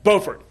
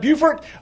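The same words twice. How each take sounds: First: The first syllable sounds like 'boh', as in bow. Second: The first syllable sounds like 'bew', as in beautiful. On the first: This is the North Carolina town. "Up in the North Carolina side" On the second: This is the South Carolina town. "it's the South Carolina side"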